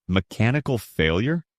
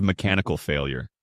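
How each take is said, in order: First: "Mechanical failure?" lifted into a rising question; questioning echo. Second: Said in the usual way. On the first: A narrator's reading. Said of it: "I repeated, looking between them".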